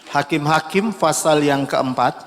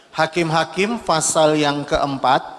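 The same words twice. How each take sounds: The two takes are said the same way.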